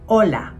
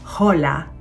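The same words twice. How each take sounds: First: The word starts directly with the vowel o. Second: The word starts with an audible h sound. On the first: The speaker calls it right. "sinasabi ito na hola" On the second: The speaker calls it wrong. "hindi ito hola"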